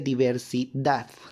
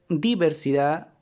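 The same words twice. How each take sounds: First: The stress is on the last syllable. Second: The stress falls before the last syllable. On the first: The speaker calls it right. "El golpe de voz está en la última sílaba" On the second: The speaker calls it wrong. "No se pronuncia diver, diversidad"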